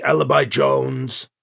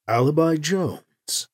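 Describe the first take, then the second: First: Slow, every syllable of "Alibi Jones" spelled out; over-enunciated translator. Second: A silky alien voice, unhurried; smooth translator voice. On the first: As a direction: stiff machine translator, slowly. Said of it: "the old speaker over-enunciated". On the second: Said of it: "the translator speaker said in a smooth voice". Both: A narrator's reading.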